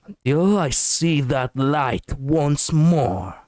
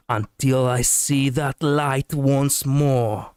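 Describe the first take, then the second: First: Slow, menacing line read; villainous. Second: Slow, warmer line read; gentle hero line. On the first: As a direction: make it sound like a villain. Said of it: "that was kind of villainous". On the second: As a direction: say it with more warmth. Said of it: "Let me try to be a little bit more warm". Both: Pretend.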